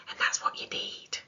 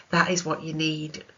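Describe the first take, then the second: First: Whispered aside, no voice; hushed emphasis. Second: Said aloud, firm on THAT; emphatic repeat; firm restatement. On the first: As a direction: breathe it like a secret. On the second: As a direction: land the point plainly. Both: Shown as a demonstration.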